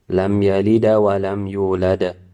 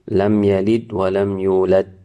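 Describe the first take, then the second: First: The final consonants bounce into a full added vowel. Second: The final consonants stop dead with no echo. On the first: "exaggerate it or go to the extent of reading it as a haraka" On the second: "not making echoing sound at all"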